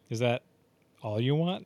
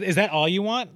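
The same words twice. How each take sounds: First: It sounds creepy and suggestive. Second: It sounds genuinely surprised.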